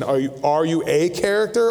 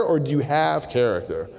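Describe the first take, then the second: First: "a" stressed as a full "ay". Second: "have" leaned on, then falling away; stress on HAVE. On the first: Preacher challenges the church on being a character, stressing "a". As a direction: set off "a" before "character", said as "ay". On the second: Preacher asks the church about real character, stressing "have". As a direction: punch "have" against the first question. Contrasts being with having character. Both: Shown as a demonstration.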